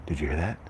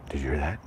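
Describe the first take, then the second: No difference in how they are said.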